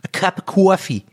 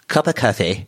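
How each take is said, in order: First: It is said in a New Jersey accent. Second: It is said in posh Harvard English.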